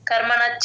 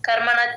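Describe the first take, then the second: First: The 'sh' merges into a doubled 'ch' sound. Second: The same.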